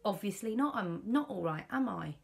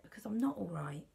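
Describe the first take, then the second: First: Louder, higher, irritated snap back; retold snap. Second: Said in the usual way. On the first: Answering her husband during their row, a louder irritated retort. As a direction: bite back at him, fed up. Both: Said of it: "That's how I said it".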